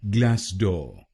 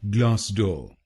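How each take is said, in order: First: It is said in an American accent. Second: It is said in a British accent.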